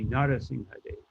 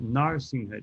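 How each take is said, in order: First: The vowel after 'Nar' is pronounced. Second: The vowel after 'Nar' is dropped. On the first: The speaker calls it right. "You say all the syllables" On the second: The speaker calls it wrong. "all these dropping off the A's"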